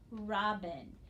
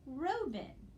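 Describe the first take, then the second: First: The first syllable is a closed 'rob' sound. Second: The first syllable is an open 'roe' sound. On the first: The speaker calls it right. "it becomes a closed syllable and a closed syllable" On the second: The speaker calls it wrong. "divide before the consonant, that is row, so it's open"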